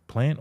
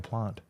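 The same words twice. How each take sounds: First: "Plant" with a short flat a, as in cat; short-a pronunciation. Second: "plant" with a long ah, like "plahnt"; long-a pronunciation. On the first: Quizzing which way to say plant, short-a version. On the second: Quizzing which way to say plant, long-ah version. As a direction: say "plant" with a drawn open ah. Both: Shown as a demonstration. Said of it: "Plant or plant?".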